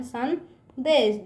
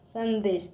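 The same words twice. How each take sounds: First: संदेश stretched very slowly, syllable by syllable; teacher stretches संदेश slowly; slow sounding out. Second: Said in the usual way. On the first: Shown as a demonstration. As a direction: draw out संदेश for the class. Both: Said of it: "किस तरह से लिखेंगे इसको?".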